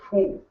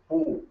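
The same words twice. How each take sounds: First: The consonant has a strong burst of breath. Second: The consonant has little breath. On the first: The speaker calls it right. "you say poo, because that has more mahaprana" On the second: The speaker calls it wrong. "you don't say poo"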